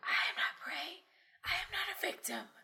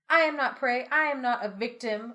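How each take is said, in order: First: It is said in a whisper. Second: It is said in a normal speaking voice.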